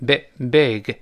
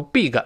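First: "big" with a lax short i, close to "beh-g"; slow model "big" with a relaxed vowel; drawn-out "big, big", vowel toward "eh". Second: "big" with a long "ee", like "beeg"; wrong tense vowel in "big"; mispronounced vowel. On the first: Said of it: "它不发一了，发诶". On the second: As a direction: say "big" as "bee-g". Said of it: "但不要读big". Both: Shown as a demonstration.

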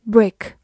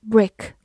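Both takes have the same delivery.

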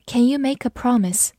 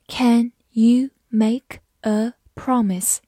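First: Said in the usual way. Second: Slow, careful reading pace. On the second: Shown as a demonstration. Teacher reads example slowly for learners, slow. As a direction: stretch out each word slowly.

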